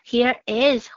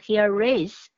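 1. 这两个词是分开说的。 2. 这两个词是连在一起说的。

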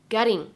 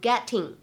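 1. 中间的 t 是快速的闪音。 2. 中间的 t 是清晰的硬 t。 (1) "存在一个美式发音当中所独有的flap t" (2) "你不需要读成getting"

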